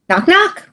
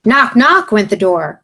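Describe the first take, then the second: First: Acted knock. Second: Said in the usual way. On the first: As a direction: knock knock said high and sharp.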